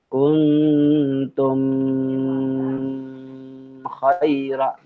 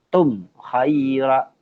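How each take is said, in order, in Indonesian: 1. Huruf m ditahan dengan dengung sengau. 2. Huruf m dibaca jelas tanpa dengung sengau. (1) "Tidak tepat membacanya kuntum khaira" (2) "Harus dibaca tum khaira, jelas"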